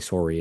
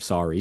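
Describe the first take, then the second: First: It is said with a Canadian accent. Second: It is said with an American accent. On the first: "they have a funny accent, so they say sorry" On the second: "instead of sorry"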